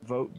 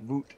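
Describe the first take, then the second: First: Said in the usual way. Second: Canadian "oo" in VOOT; mock Canadian accent. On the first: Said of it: "You were like". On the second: Teasing a player over how they say vote, mock Canadian accent. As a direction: imitate a Canadian saying "Voot" with an oo vowel. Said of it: "very Canadian".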